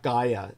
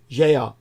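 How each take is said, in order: First: The word begins with a hard g sound. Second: The word begins with a j sound. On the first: The speaker calls it wrong. "The correct pronunciation, by the way, is not Gaia. I say that because most people read it that way" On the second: The speaker calls it right. "The correct pronunciation is Jaya. Jaya, like geography"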